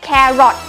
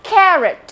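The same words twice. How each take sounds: First: The second syllable has a full, clear vowel. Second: The second syllable has a reduced schwa vowel. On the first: The speaker calls it wrong. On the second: The speaker calls it right.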